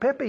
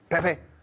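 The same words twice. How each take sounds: First: The name is called out in a friendly way. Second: The name is shouted in an angry way. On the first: The caller wants to get someone's attention. "I'm shouting to Pepe" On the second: The caller is scolding someone. "I'm shouting at Pepe. Because I'm angry"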